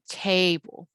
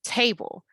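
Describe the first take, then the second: First: "table" with a long drawn-out first syllable; stretched first syllable. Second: Said in the usual way. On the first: Shown as a demonstration. Teacher showing how the stressed syllable stretches out, "table" with first vowel held. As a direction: hold the "ta" in "table", then drop lightly onto "ble". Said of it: "it stretches out". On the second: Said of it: "if you say that out loud".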